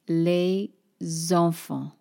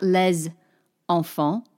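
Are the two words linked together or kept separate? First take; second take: linked; separate. First: The two words are linked smoothly together. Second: The two words are said as separate blocks.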